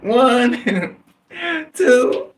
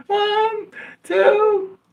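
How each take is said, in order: First: Put-on high, little-kid voice counting out; small child counting. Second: Put-on louder child counting. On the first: Boy counting aloud for the robber, in a high little-kid voice. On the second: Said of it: "Louder, louder".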